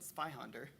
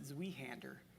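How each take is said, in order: First: The word is said the German way. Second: The word is said the American way. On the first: "when you pronounce it correctly" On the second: "Americans would pronounce it"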